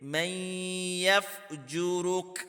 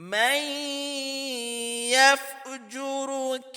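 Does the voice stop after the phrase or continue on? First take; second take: stops; continues. First: It stops on a bare final k sound. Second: It flows straight into the next word. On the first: The recitation pauses at this point. "अगर यहाँ पे हम वक्फ करेंगे, ठहरेंगे ... काफ को साकिन करेंगे" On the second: The recitation carries on without pausing. "अगर हमने यहाँ पे रुकना नहीं है"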